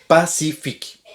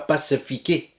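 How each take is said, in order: First: The final E is silent. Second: The final E is pronounced as a vowel. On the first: The speaker calls it right. "le E final ne se prononce pas" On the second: The speaker calls it wrong. "c'est pas pacifiqué"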